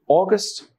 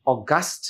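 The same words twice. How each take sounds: First: August as "AW-gust", strong start, weak end; first-syllable stress. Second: August as "aw-GUST", weak start, strong end; second-syllable stress. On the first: Teacher contrasting the month noun, August stressed on the first syllable. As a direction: hit the opening AW of August. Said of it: "এটা noun". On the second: Teacher showing the adjective's pronunciation, August stressed on the second syllable. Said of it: "উচ্চারণ হবে তখন ওটার". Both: Shown as a demonstration.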